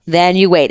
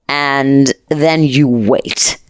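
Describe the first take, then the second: First: Said in the usual way. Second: Drawn-out, slow and hushed; slowly, as if the waiting itself were heavy; slow suspense. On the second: Acted. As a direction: stretch every word to build dread. Dramatic pause before the trip.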